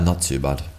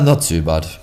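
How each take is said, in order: First: It is said in a flatter, gloomier tone. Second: It is said in a brighter, more upbeat tone. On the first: Things are going somewhat poorly. "not as good" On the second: Things are going fairly well. "a little bit better"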